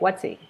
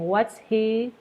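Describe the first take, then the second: First: The H is dropped, words run together. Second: The H in 'he' is clearly pronounced. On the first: "We would run that what's and he together" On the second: "instead of saying"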